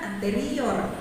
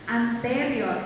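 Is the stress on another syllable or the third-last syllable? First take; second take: another; third-last. First: The stress is not on the third-last syllable. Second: The stress is on the third-last syllable. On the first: The speaker calls it wrong. "Bukan anterior" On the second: The speaker calls it right. "penekanan tiga suku kata dari terakhir"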